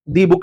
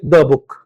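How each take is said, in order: First: 'The' is said with a long 'ee' vowel. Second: 'The' is said with a short 'uh' vowel. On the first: The speaker calls it wrong. "नहीं बोलेंगे" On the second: The speaker calls it right. "तो हम क्या बोलेंगे?"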